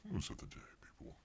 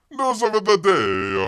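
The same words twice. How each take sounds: First: Breathy whispered repeat of news of the day. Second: Loud, slow news announcement; announcer. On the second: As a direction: boom it like a headline. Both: Acted.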